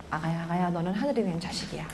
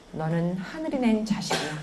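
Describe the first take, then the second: First: Put-on softer, hushed words to a baby; tender blessing to baby. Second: Put-on soft, tender blessing to a baby; soft blessing spoken to a child; gentle blessing. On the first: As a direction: croon it softly over the cradle. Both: Shown as a demonstration. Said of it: "우리 아기한테 말하세요".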